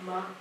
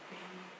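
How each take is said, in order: First: The consonant is followed by an extra vowel. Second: The consonant is held alone with no vowel. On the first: The speaker calls it wrong. "it's not muh" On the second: The speaker calls it right. "We don't want to add an extra vowel sound to that"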